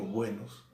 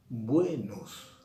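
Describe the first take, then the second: First: Said in the usual way. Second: "buenos" with the first syllable BUE pushed louder, nos falling away; "buenos" stressed on BUE, falling tune. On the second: Shown as a demonstration. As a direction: lean hard on BUE in "buenos", let it fall. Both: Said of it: "pero lo que estoy haciendo es decir".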